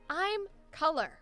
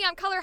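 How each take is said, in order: First: It sounds calm, grounded and confident. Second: It sounds loud, pushy and yelling.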